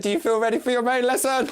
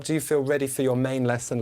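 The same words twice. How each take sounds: First: "Do you feel ready for your main lesson?" higher and louder; louder repeat. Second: Said in the usual way. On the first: Shown as a demonstration. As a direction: repeat the question louder to rouse the class. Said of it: "I said". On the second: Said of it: "I can't hear you".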